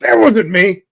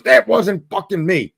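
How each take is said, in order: First: Raised, loud protest of innocence; defensive denial. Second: Slower, harder denial in a changed voice; insistent angry denial. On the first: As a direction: blurt it out to deny the blame. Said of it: "And he goes". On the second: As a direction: spit it out, fed up with being blamed. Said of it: "He goes". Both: Retold or imitated.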